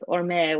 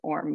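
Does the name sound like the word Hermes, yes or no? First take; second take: yes; no. First: The name sounds like Hermes. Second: The name does not sound like Hermes. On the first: The speaker calls it wrong. "people call it like Orme, which to me sounds like Hermes" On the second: The speaker calls it right. "of course you would pronounce it Orme"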